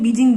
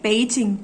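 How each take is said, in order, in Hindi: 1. नाम की शुरुआत एक सघोष b ध्वनि से होती है। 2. नाम की शुरुआत एक अघोष p ध्वनि से होती है। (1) "अंग्रेजी और हिंदी में बीजिंग बोल देते हैं" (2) "सही उच्चारण इसका है पेइचिंग"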